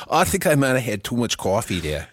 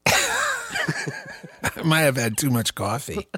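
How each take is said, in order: First: Composed mock New York accent; put-on New York accent. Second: Slow, high, laughed-out admission; laughing. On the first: Admitting too much coffee in character, put-on New York accent. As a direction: repeat it as a comic New Yorker. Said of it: "to actually do this accent right". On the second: Real, not acted. Blaming coffee for the giggle fit, laughing. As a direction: say it through helpless laughter.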